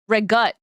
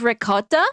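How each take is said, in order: First: The word is said the Italian-American way. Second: The word is said in a standard way. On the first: "they say regut" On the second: "Instead of ricotta"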